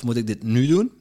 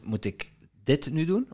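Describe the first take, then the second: First: The stress falls on the word nu. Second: The stress falls on the word dit. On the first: Maybe another moment is better. "Is er dit het geschikte moment om het te doen?" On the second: Maybe other tasks matter more. "Of zijn er andere dingen die belangrijk zijn die ik moet doen?"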